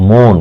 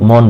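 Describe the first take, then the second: First: "মন" said as a slow mohn; closed o-vowel. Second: "মন" said as mawn; rejected open vowel. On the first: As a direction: round "মন" to a long "oh". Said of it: "ওকারের মতো উচ্চারণ করছি". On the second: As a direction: say "মন" with open "aw", the wrong form. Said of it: "আমি মন বলছি না". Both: Shown as a demonstration.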